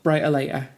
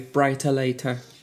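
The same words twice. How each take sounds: First: The title is said quickly and casually. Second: The title is said slowly with crisp articulation.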